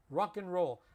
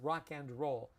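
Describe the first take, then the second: First: The 'and' is reduced to a short 'n' sound. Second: The 'and' is pronounced as a full word. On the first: The speaker calls it right. "Anytime you see and, we pronounce it mm" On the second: The speaker calls it wrong. "no one says rock and roll"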